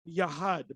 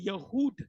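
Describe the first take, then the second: First: The second vowel sounds like 'ah'. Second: The second vowel sounds like 'oo'. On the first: This is the correct form of the word. The speaker calls it right. "the correct pronunciation is Yahad" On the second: This is how other people commonly say it. The speaker calls it wrong. "but they say Yahud"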